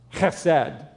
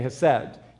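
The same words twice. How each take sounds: First: It starts with a harsh, throaty guttural sound. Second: It starts with a soft, plain h sound. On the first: "that guttural German hesed" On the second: "but just say hesed"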